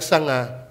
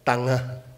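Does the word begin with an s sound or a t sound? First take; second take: s sound; t sound. First: The word begins with an s sound. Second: The word begins with a t sound. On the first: "pronounce mo siya ng sanga" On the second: "Ang kanyang S ay T"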